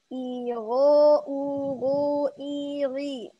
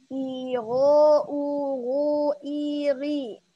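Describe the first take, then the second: The two takes are said the same way.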